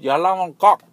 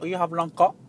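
First: It is said very loudly. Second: It is said at normal volume.

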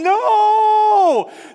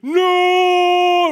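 First: It is drawn out slowly, like slow motion. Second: It is said at normal speed.

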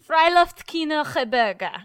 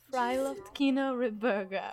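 First: It is said in an angry tone. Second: It is said in a neutral tone.

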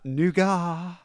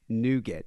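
First: The word is pronounced the British way. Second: The word is pronounced the American way. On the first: The speaker calls it wrong. "not nougat" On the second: The speaker calls it right. "the proper way to say it is nougat"

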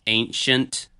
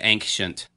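First: The word is said without an added K sound. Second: The word is said with an added K sound. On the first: This is the usual pronunciation. The speaker calls it right. "apparently it's ancient" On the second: This is an unusual personal pronunciation. The speaker calls it wrong. "I throw like a K in there somewhere"

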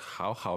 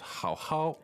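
First: The second syllable keeps a low third tone. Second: The second syllable has a high level tone. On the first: This is the standard form before the change. "that's two third tones" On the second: This is the Beijing way of saying it. "This is Beijing Mandarin here"

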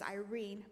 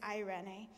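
First: It is said like the English name Irene. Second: It is said with the original Greek pronunciation. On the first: The speaker calls it wrong. "in our American language we pronounce it as Irene" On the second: The speaker calls it right. "but it's eirene"

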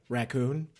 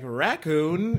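First: The stress is on the second syllable. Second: The stress is on the first syllable. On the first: The speaker calls it right. "What do you say?" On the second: The speaker calls it wrong. "The emphasis was all strange"

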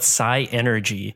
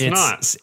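First: It is said as psi plus energy, four syllables. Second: It is said as one word of three syllables. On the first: The speaker calls it wrong. "I used to call it psi energy, but there's no E there" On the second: The speaker calls it right. "It's synergy"

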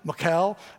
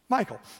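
First: The ch is said as a hard, throaty sound. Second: The ch is said as a plain English k. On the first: "If you throw a little Hebrew in there, you got the CH is hard" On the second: "So we're all going to agree to do the American way"

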